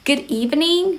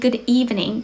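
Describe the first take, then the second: First: The greeting is said at a raised, higher pitch. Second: The greeting is said at a plain, lower pitch. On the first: "you also want to raise your tone a little bit" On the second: "Instead of saying good evening"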